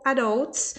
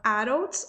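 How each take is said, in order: First: "adults" said with a full hard D; "adults" with a true D, not tapped. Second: "adults" said "arults", with a tapped R; "adults" with a quick tap replacing the D. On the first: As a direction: say "adults" as "a-dolts", D fully pronounced. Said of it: "fala tanto D com som de D". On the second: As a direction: say "adults" with the D flapped like a Portuguese single R. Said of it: "ou D com som de R". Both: Shown as a demonstration.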